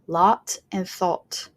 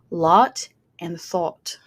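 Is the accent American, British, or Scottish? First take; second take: British; British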